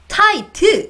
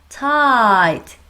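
First: The final t is clearly and fully released. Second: The final t is soft and barely audible. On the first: The speaker calls it wrong. "이게 아니라" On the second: The speaker calls it right. "들릴랑 말랑, 이렇게 부드럽게, 살짝 미묘하게 해주는 거예요"

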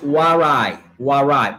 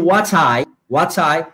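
First: The t in 'what' is a quick flap. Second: The t in 'what' is a clear t. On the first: "decimos what I" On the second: "en vez de decir what I"

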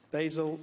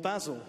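First: The name is said the American way. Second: The name is said the British way.

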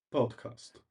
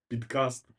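First: The first vowel is an English 'o' sound. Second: The first vowel is an 'ee' sound. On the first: The speaker calls it right. "просто так по-англійськи" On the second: The speaker calls it wrong. "не підкаст"

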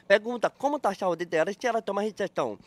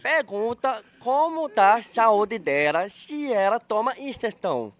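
First: The sentence is spoken at a fast pace. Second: The sentence is spoken at a slow pace. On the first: "Quer que eu fale rápido, então?" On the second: "Eu tenho que falar devagar"

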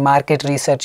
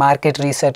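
First: The words are mumbled and run together. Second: The same.

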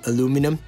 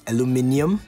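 First: It is said the American way, aluminum. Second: It is said the British way, aluminium.

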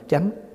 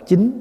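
First: It is said with the Southern reading, chánh. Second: It is said with the Northern reading, chính. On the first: This is how our own community reads it. "mình đọc chánh" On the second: This is how Northerners read it. "người Bắc đọc chính"

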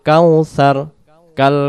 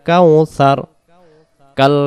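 Both takes have the same delivery.

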